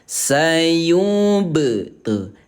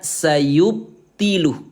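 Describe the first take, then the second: First: The b is released with a short echoing bounce. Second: The b is stopped short without any bounce. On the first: The speaker calls it right. "tinggal menambahkan huruf e di belakang ba sebagai apa us? Sebagai pantulan" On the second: The speaker calls it wrong. "Jadi jangan hanya dibaca sayubtiluh, bukan"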